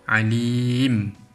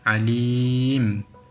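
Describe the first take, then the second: Both takes have the same delivery.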